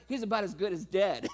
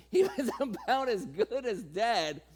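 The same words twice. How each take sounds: First: Said in the usual way. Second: Slow, chuckling through the words; laughing retelling. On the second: Shown as a demonstration. Preacher amused by old Abraham, chuckling slowly. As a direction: savour the joke slowly.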